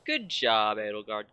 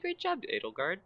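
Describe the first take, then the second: First: It sounds sarcastic. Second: It sounds sincere.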